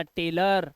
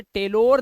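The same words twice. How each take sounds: First: टेलर ending in a short 'ur'; low टेलर with a neutral last vowel; correct 'tailor' reading. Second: टेलोर ending in a full 'ore'; the mistaken टेलोर, rhyming its end with door; wrong 'tailor' reading. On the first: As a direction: say टेलर with an 'ar/ur' ending, no O. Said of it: "अर करके पढ़ना है". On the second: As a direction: say टेलोर with a long O in the last syllable. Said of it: "टेलोर नहीं पढ़ना". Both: Shown as a demonstration.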